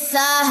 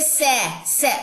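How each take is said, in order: First: The vowel is a long open 'aa'. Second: The vowel is a fronted 'ay' sound. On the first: The speaker calls it right. "ये सा है" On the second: The speaker calls it wrong. "ये सै नहीं है"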